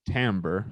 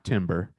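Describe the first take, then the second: First: It is said unlike the word timber. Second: It is said like the word timber. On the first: The speaker calls it right. "Believe me or not, that's how you pronounce it" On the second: The speaker calls it wrong. "not timber"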